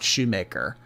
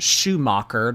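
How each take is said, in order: First: The name is said as Shoemaker. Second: The name is said as Schumacher. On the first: The speaker calls it wrong. "not Shoemaker" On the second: The speaker calls it right. "My last name is pronounced Schumacher"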